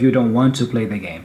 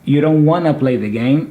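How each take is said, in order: First: "Want to" is said as two full words. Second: "Want to" is run together as wanna. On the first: "instead of" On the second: "I'm connecting both of them, ... saying wanna"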